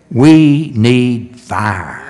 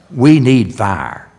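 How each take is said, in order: First: We need fire drawn out very slow and louder; preacher's weighty, slowed We need fire; slow emphatic repeat. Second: Said in the usual way. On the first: Acted. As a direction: lean hard on every word of We need fire, slowly.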